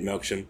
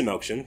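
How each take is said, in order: First: Melksham said softly the way the locals say it, quick and clipped to MELK-shum; soft aside showing how the town says Melksham; local British pronunciation. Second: Said in the usual way. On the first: Shown as a demonstration. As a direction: Melksham with the last syllable reduced to shum. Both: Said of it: "you know, they say it".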